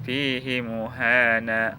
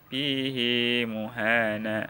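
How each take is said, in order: First: The vowel after the h is short. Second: The vowel after the h is long. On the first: "Jadi hak kinayahnya dibaca pendek" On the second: "hak kinayahnya dibaca panjang"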